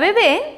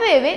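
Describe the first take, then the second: First: The stress is on the second syllable. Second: The stress is on the first syllable. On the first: "cargamos la voz en la última sílaba" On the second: "cargamos más la voz en la penúltima sílaba"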